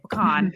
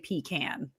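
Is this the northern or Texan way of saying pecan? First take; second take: Texan; northern. First: It is said the local Texan way. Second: It is said the northern, out-of-state way. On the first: This is how locals say it. The speaker calls it right. "We say pecan" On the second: This is how outsiders say it. The speaker calls it wrong. "we do not say pecan"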